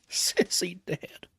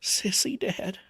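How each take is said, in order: First: Hushed whisper, stunned and empty; vacant whisper. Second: Vacant repeat. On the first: Father hearing his daughter died, vacant whisper. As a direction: breathe it out, numb with shock. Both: A narrator's reading. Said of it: "he said vacantly".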